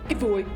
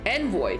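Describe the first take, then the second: First: The word is said without an n sound. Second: The word is said with an n sound. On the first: The speaker calls it wrong. "It's not evoy, is it?" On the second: The speaker calls it right. "Thank you for fucking pronouncing correctly"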